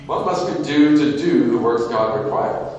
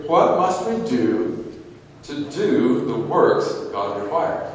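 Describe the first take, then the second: First: A heavier "do" in "to do the works"; firm, fuller reading; stress on do. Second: What must we do, slow and weighted; slow, pressing question; stress on do. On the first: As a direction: punch the second "do". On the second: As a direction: lean on "do" and "works". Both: Shown as a demonstration. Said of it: "Any emphasis on doing there?".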